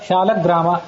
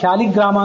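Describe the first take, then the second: First: The second syllable is said as 'la'. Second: The second syllable is said as 'li'. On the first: This is the grammatically correct form. The speaker calls it right. "ಲ ಶಾಲಗ್ರಾಮ ಅಂತ ಅನ್ನೋದು ವ್ಯಾಕರಣದ ರೀತಿಯ ಹೆಚ್ಚು ಶುದ್ಧವಾದದ್ದು" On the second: This is the everyday spoken form. The speaker calls it wrong. "ನಾವು ವ್ಯವಹಾರದಲ್ಲಿ ಶಾಲಿಗ್ರಾಮ ಅಂತ ಅಂತೀವಿ, ಲೀ ಅಂತೇವೆ. ಲೀ ಅನ್ನೋದು ವ್ಯಾಕರಣದ ರೀತಿ ಅಷ್ಟು ಶುದ್ಧ ಅಲ್ಲ"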